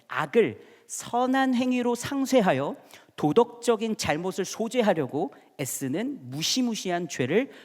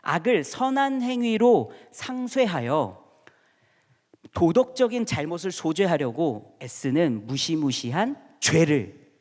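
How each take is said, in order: First: It is read at a normal, quicker pace. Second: It is read slowly and deliberately.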